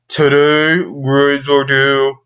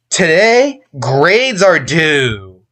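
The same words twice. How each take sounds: First: The voice sounds flat and without emotion. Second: The voice sounds sad and varied in pitch. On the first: The speaker calls it wrong. "this is what the emotionless teen sounds like" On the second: The speaker calls it right. "tone fluctuating version ... During the grades part, I carried a typically sad or negative tone"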